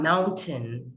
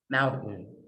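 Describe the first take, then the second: First: The T is fully released. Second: The T is held in the throat. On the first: The speaker calls it wrong. "It's not mountain" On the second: The speaker calls it right. "it's mountain. You'll notice we hold the T"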